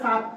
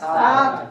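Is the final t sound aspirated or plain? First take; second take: plain; aspirated. First: The final t is plain, without breath. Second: The final t has a puff of breath. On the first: "আমি বললাম এভাবে সাত" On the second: "যখন একটা হা দিছি"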